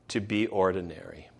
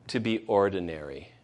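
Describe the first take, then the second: Both takes have the same delivery.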